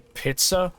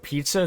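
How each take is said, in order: First: It is said in a German accent. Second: It is said in a plain English accent.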